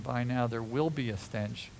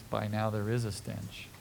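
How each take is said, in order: First: "will" stressed as a future prediction. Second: "is" stressed as present fact. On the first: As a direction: lean on "will", low and soft. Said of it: "no reason to think that she was saying". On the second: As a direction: lean on "is", low voice. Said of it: "But the reality is". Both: Shown as a demonstration.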